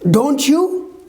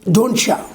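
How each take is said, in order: First: "You" is said in full, unlinked. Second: "You" blends with the t into "cha". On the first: "for example" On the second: "it becomes"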